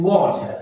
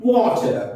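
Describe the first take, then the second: First: "वाटर" the British way, waw-chuh; British-style "वाटर" with silent R; British English. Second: "वाटर" offered as the American way; lightly American-style "वाटर"; American English. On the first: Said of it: "British English में हम बोलते हैं". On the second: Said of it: "American English में बोलते हैं". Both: Shown as a demonstration.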